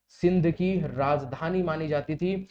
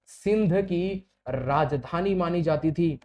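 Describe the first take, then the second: No difference in how they are said.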